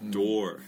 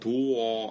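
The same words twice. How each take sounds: First: The final R sound is clearly pronounced. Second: The final R sound is dropped. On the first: The speaker calls it right. "R 발음 꼭 살려야 돼요" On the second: The speaker calls it wrong. "door 아니에요"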